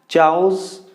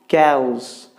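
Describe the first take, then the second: First: The word begins with a 'ch' sound. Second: The word begins with a 'k' sound. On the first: The speaker calls it wrong. "No, you don't have to say like that" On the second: The speaker calls it right. "You need to pronounce like cows"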